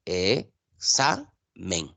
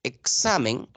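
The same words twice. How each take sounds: First: "Examen" in three drawn-out syllables, E - xa - men; teacher dividing "Examen" as E... xa... men. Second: Said in the usual way. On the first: Shown as a demonstration. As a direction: split "Examen" slowly with clear pauses: E, xa, men. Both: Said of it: "se divide en tres sílabas".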